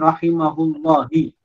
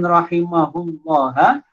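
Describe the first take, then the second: First: The word ends with an i vowel. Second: The word ends with an a vowel.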